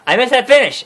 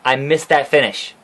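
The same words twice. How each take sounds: First: Higher, excited second take; excited repeat. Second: Said in the usual way. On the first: Shown as a demonstration. Vlogger repeating his line to viewers, higher and excited. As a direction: say it again, now thrilled.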